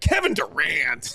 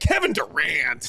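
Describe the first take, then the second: First: The name is said with exaggerated, mocking attitude. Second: The same.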